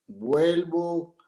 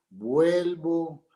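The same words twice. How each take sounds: The two takes are said the same way.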